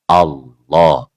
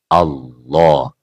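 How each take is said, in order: The two takes are said the same way.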